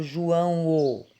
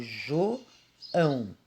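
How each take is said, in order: First: "João o" with an extra separate O on the end; wrongly split ending. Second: "João" as two slow separate beats, JO, ÃO; two-syllable split. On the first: Teacher showing how João is not said, extra O tacked on. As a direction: say "João o", adding a detached final O. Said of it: "Eu não falo João o". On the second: Teacher showing how she says João, split into two syllables. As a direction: say "João" slowly as JO, then ÃO. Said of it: "eu falo João". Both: Shown as a demonstration.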